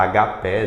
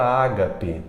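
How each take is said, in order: First: Agapé mispronounced with stress on PÉ; stress on last syllable. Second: Ágape with stress on Á; stress on first syllable. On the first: Teacher showing the usual mistake, stress on PÉ in agapé. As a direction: say a-ga-PÉ, final syllable strongest. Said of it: "é costume a gente errar". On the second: Teacher introducing the correct word, stress on Á in ágape. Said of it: "Ágape sempre vai ser proparoxítona". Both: Shown as a demonstration.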